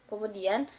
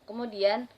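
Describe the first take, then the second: No difference in how they are said.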